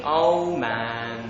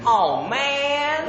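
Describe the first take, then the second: First: Said in the usual way. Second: High, drawn-out American "maaan"; American accent. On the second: Shown as a demonstration. Brit trying American phrases, high American accent. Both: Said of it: "my best American accent".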